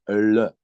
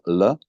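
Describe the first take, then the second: First: The L is said with the tongue curled back. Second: The L is a plain vowel-like sound. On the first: "but it is L. So retroflex" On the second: "if it would have a dot, we will pronounce it as L"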